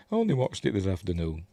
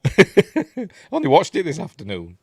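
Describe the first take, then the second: First: Said in the usual way. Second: Laughing. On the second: Real, not acted. Laughing at own forgetfulness.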